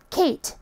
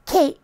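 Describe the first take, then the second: First: Said in the usual way. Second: "Kate" with no final T; dropped T. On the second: Shown as a demonstration. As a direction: end "Kate" on a glottal stop, Kay'. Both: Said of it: "The letter T does not get pronounced".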